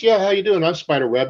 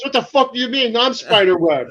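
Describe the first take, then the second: First: Mock confident greeting, pitched up at the start; breezy self-introduction. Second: Retold outburst, jumping high in pitch; indignant boss. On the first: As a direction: introduce yourself casually, as the man in charge. Retells introducing himself to customers. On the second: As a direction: imitate an offended boss asserting who he is. Retells boss's indignant outburst.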